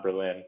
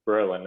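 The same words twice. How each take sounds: First: "Berlin" said with the stress on LIN; stress on second syllable. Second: "Berlin" said with the stress on BER; stress on first syllable. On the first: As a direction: say "Berlin" as ber-LIN, like the German city. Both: Shown as a demonstration. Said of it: "I think it's Berlin, not Berlin".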